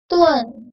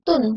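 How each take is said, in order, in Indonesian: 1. Bunyi e ada di antara u dan n. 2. Bunyi u langsung ke n tanpa e. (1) "Seperti ada huruf E-nya antara U dan N dibaca tuen" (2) "bukan tidak dibaca tun"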